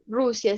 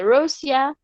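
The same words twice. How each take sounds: First: Said in the usual way. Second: "Rusia" said as English Russia; English pronunciation. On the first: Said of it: "en inglés". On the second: Shown as a demonstration. Teacher giving students the English country name, "Rusia" in English pronunciation. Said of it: "se dice Rusia".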